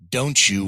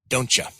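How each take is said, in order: First: The two words are said fully and separately. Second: The two words are run together and shortened.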